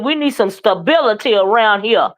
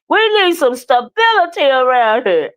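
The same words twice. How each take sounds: First: It is said in the speaker's normal voice. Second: It is said in a put-on character voice.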